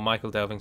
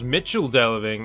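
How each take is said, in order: First: The first word sounds like Michael. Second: The first word sounds like Mitchell. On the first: The speaker calls it wrong. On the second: The speaker calls it right. "it's supposed to be pronounced Mitchell Delving"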